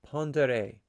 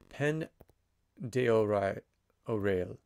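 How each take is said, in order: First: The name is said in a short, clipped form. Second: The name is sounded out as it is spelled. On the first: The speaker calls it right. "phonetically, how do you say it?" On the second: The speaker calls it wrong. "that is really, really bad pronunciation"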